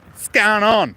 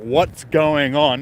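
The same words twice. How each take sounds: First: The words are crammed together into one word. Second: Each word is said clearly and separately. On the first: "It's just one word" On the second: "instead of"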